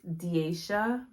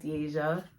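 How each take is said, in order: First: The middle consonant is a soft sh sound. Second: The middle consonant is a j sound. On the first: This is how the name was meant to be said. The speaker calls it right. "Let me let me say it right, like how my mom actually made me to be" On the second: This is how most people say the name. The speaker calls it wrong. "but everybody calls me"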